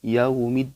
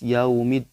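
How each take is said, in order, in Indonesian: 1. Bunyi 'u' lemah dan tidak jelas. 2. Bunyi 'u' lemah dan tidak jelas.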